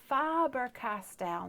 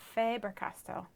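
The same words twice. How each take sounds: First: The first syllable sounds like 'fab'. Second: The first syllable does not sound like 'fab'. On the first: The speaker calls it right. "it's Faber-Castell ... Like fab" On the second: The speaker calls it wrong. "not Faber-Castell"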